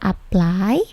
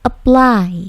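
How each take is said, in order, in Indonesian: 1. P dilepas dengan hembusan napas yang kuat. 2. P dilepas tanpa hembusan napas. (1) "Bukan apply" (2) "P-nya tidak plosif ya"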